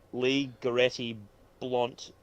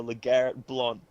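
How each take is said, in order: First: "Lee Goretti" said as LEE guh-RET-ee; mispronounced name. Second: "LeGarrette" as one name, luh-GARR-it; corrected pronunciation. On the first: Misreading a player's name from the bet slip, mispronounced. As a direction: say "Lee Goretti" as two names, stressing LEE. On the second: Reader repeating the co-host's correction, corrected pronunciation. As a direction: say "LeGarrette" evenly, stress on GARR. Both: Real, not acted.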